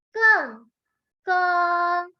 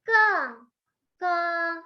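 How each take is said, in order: Both takes have the same delivery.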